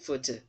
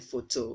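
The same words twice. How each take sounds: First: The second vowel is a reduced, weak sound. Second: The second vowel is a full O sound. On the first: The speaker calls it right. "it should be photo" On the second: The speaker calls it wrong. "that letter O should not sound as O, so you should not say photo"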